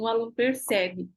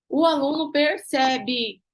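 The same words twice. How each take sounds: First: Said in the usual way. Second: "O aluno percebe" said slowly and louder, every word weighted; a slow, pressing restatement; slow emphatic repeat. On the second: Shown as a demonstration.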